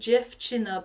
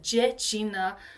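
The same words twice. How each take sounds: First: The word is said with a v sound. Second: The word is said without a v sound. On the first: This is the standard form. "in Polish language you would say dziewczyna" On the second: This is the mountain dialect form. "they lose the v, the v. So it's dziewczyna"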